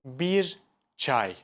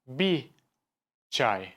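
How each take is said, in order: First: The r of bir is pronounced. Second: The r of bir is dropped. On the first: "We don't say" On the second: "We say"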